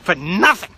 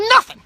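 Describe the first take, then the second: First: "nothing" said louder; firm, louder "nothing"; stress on nothing. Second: "nothing" shouted very high and loud; high, loud yelp on "nothing"; emphatic nothing. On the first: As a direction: lean on "nothing" with moderate force. First take before emphatic repeat. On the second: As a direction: explode on the first syllable of "nothing". Repeats after "I mean" for emphasis. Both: Real, not acted.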